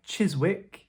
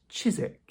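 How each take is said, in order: First: The w sound is pronounced in the middle. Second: The w sound is left out entirely. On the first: The speaker calls it wrong. "looks like" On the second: The speaker calls it right. "simply pronounced Chiswick. So another one where we ignore that W"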